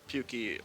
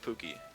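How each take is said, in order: First: The first syllable sounds like the word puke. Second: The first syllable sounds like pook, not puke. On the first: The speaker calls it wrong. "Pukey sounds like you're throwing up" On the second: The speaker calls it right. "I like Pookie"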